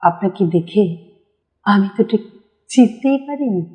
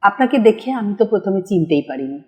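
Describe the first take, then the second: First: It is said in an expressive acted style. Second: It is said in a plain presenting style. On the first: "যখনই এটা কণ্ঠনাটকে এসে যাবে" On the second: "সঞ্চালক এভাবে বলতেই পারে"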